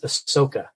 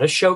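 First: The middle consonant is a plain s sound. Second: The middle consonant is a sh sound. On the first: The speaker calls it right. "Her name is Ahsoka" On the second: The speaker calls it wrong. "not Ashoka"

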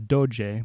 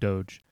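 First: The word is said with an Italian pronunciation. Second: The word is said with an English pronunciation. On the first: "corrected to doge by a local guide. This makes complete sense in Italian" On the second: "I'm going to stick with the pronunciation doge"

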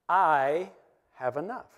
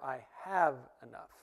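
First: The word 'I' is stressed. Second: The word 'enough' is stressed. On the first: "the first time we say it, we're going to emphasize the word I" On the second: "the third time we're going to say it, we're going to emphasize the word enough"

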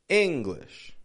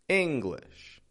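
The two takes are said the same way.

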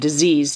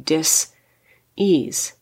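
First: The word is said smoothly as one unit. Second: The word is split into two separate parts. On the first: It names an illness. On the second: It means a lack of ease in body and mind.

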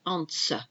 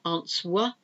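First: The W sound is silent after the S. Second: The W sound is pronounced after the S. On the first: The speaker calls it right. "it's answer. So there's another silent W" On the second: The speaker calls it wrong. "It's not answer"

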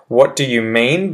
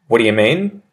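First: Every word is said fully and distinctly. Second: The words run together quickly and reduced. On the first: "correct, proper, well-enunciated English first" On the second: "the sped-up sort of change in pronunciation"

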